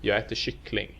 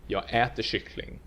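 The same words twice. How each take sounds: First: "jag äter" unstressed, emphasis on final "kyckling"; stress on kyckling. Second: "äter" emphasized over "kyckling"; stress on äter. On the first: Teacher showing the entire phrase in neutral prosody, stress on "kyckling". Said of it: "we only stress the final word". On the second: Teacher showing eating, not drinking it, emphatic stress on "äter". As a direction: punch the verb "äter" for contrast. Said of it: "emphasize that you're eating the thing". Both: Shown as a demonstration.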